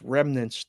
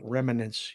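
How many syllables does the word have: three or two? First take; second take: two; three. First: The word is said with two syllables. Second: The word is said with an extra syllable. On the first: The speaker calls it right. "It's remnants" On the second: The speaker calls it wrong. "not remnants. You added a syllable"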